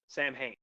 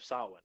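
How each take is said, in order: First: The name is read out as it is spelled. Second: The name is said the traditional way. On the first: It is the name of the character. The speaker calls it wrong. "obviously a mis a mispronunciation" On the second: It is the name of the holiday. The speaker calls it right. "the Celtic holiday of Samhain"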